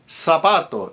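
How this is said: The z is pronounced as an s sound. "in Latin American Spanish"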